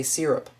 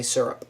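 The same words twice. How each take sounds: First: "syrup" said as SEER-up; first syllable of "syrup" with an IH, SIH-rup; wished-for pronunciation. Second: Said in the usual way. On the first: Shown as a demonstration. Wishing they could say it so, SIH-rup pronunciation. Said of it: "I wish I could say syrup". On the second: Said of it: "but I say syrup".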